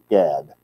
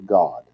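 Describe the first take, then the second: First: The vowel sounds like the one in 'cat'. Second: The vowel sounds like the one in 'God'. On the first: The speaker calls it wrong. "Most people would read it Gad" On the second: The speaker calls it right. "it's pronounced in Hebrew God"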